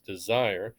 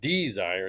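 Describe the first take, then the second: First: The stress is on the second syllable. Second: The stress is on the first syllable. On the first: The speaker calls it right. "it's desire" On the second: The speaker calls it wrong. "it's not desire"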